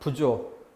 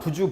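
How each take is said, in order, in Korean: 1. 마지막 모음은 'o'로 발음돼요. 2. 마지막 모음은 'u'로 발음돼요.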